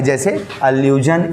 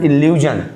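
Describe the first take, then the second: First: एल्यूजन with an open ə start, "uh-loo-zhun"; "एल्यूजन" starts with a short ə; allusion pronounced. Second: इल्यूजन with a short i start, "il-yoo-zhun"; "इल्यूजन" starts with a clear i; illusion pronounced. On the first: Teacher giving paronym example, saying एल्यूजन with ə. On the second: Teacher giving paronym example, saying इल्यूजन with i. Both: Shown as a demonstration.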